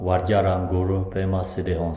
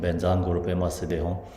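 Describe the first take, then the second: First: The first word is pronounced like "vajra". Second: The first word is pronounced like "benza". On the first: "It's actually" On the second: "Tibetan pronunciation"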